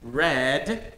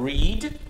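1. A vogal é curta, soando como 'red'. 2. A vogal é longa, soando como 'reed'. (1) "read in the past" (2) "read in the present"

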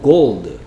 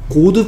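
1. 'gold'에서 L 소리는 분명하게 발음돼요. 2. 'gold'에서 L 소리는 빠져요. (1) "골드 피시가 아니고 골드" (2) "을 소리를 안 냈는데"

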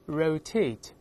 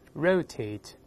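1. 重音在第二个音节。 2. 重音在第一个音节。

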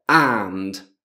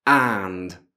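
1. La parola si dice per intero, con la sua vocale e la d finale. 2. La parola si dice per intero, con la sua vocale e la d finale.

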